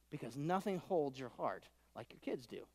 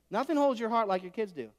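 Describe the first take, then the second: First: Softer, heartfelt line; soft, tender. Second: Said in the usual way. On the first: Shown as a demonstration. Preacher to congregation, soft tender line before they repeat it. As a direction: say it gently as a confession. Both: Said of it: "All the parents in the room say".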